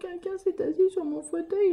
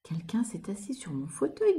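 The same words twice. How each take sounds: First: It is said in a small, crying voice. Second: It is said in a big, deep voice.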